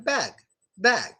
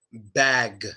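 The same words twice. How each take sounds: First: "bag" with the final g light and unreleased; soft final G. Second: "bag" with the last g hit hard and fully released; hard final G. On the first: Teacher demoing the soft version, "bag" with a light final g. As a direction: close "bag" on a gentle g without strain. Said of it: "Soft version". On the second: Teacher demoing the hard version, "bag" with a strong final g. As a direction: punch out the g ending "bag". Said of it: "a hard version would be bag". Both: Shown as a demonstration.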